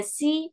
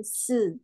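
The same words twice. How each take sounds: First: "si" with a plain ee vowel; si read as spelt. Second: "se" as a hissed s with a buzzed vowel; Mandarin si sound. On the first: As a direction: say "si" like see. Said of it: "Kita nggak baca si". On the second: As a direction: draw out "se" as sss-uh, without ee. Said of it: "melainkan se". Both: Shown as a demonstration.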